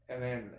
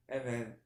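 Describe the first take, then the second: No difference in how they are said.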